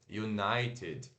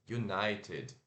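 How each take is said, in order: First: It is said with English pronunciation. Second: The same.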